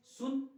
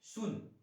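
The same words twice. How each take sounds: First: सुन said again much higher and louder; teacher repeating सुन emphatically; stressed repeat. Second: Slow demo. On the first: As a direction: call out सुन high and strong. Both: Shown as a demonstration. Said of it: "छोटी ऊ की मात्रा में".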